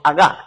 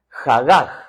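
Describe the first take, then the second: First: The h sounds are dropped and left silent. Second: The h sounds are pronounced as breathy sounds. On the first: "algunos evitan la letra H que es muda, diríamos agá" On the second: "Ahí en Guatemala diríamos jagaj"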